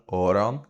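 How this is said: It is said with a long O sound. "In Ulster, you get the long O sound"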